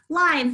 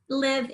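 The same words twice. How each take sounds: First: The vowel is a long 'eye' sound. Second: The vowel is a short 'ih' sound. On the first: "the silent E for the long I" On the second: "it's just helping the V not, the V not be at the end"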